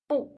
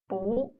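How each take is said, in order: First: The tone falls sharply from high to low. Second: The tone rises from middle to high. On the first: "is in its fourth tone, which is given here" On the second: "the sound of it changes into the second tone, which is"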